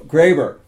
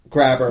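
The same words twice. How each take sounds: First: The first vowel is a long A sound. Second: The first vowel is a short A sound. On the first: This is how the name's owner says it. "and I go" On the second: This became the teammates' nickname version. "the nomenclature went to the, you know, short A"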